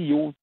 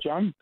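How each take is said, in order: First: The name has a Danish pronunciation. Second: The name has an English pronunciation. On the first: This is the name as used at home. "der hed jeg ikke Jon, så det kunne de ikke finde ud af at udtale" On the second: This is the name as used abroad. "men det udtales John"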